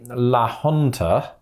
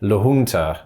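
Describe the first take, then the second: First: It is said in a British style. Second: It is said in an American style. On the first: "that's the British way of sort of saying things in Spanish" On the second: "Americans are more likely to say La Junta"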